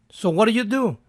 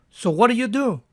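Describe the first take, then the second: The two takes are said the same way.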